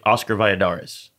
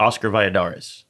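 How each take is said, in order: First: It is said with a full American accent. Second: It is said with a full American accent.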